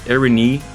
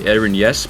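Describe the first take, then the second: First: The part after 'Eren' is said like 'ee'. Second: The part after 'Eren' is said like 'yes'. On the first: The speaker calls it right. "the Y sound in Greek is a double E sound" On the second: The speaker calls it wrong. "default would probably be Eren Yes, but it actually is not"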